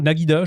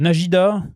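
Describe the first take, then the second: First: The middle consonant is a hard g sound. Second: The middle consonant is a soft j sound. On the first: "j'avais l'habitude de dire Naguida" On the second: "Najida ou Naguida, je sais pas comment on prononce"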